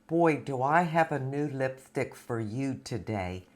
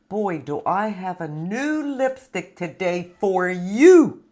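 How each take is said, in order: First: It is said naturally, without exaggerated inflection. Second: It is said in an overdone, up-and-down presenter voice.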